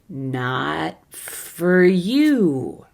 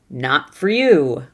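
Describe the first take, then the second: First: The phrase is said slowly. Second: The phrase is said quickly. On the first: "I'll do it slowly a few times" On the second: "Now quickly"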